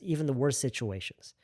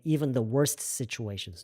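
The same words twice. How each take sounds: First: The t in worst is left silent. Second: The t in worst is clearly pronounced. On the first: The speaker calls it right. "T 묵음이에요. Just even the worst situations. That's fine" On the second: The speaker calls it wrong. "You do not have to say even the worst situations"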